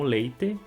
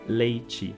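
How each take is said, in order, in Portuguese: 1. O t é um som de t simples. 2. O t é africado, soando como ch. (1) "Em algumas regiões se pronuncia como leite" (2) "no Brasil em geral, é pronunciado como leite"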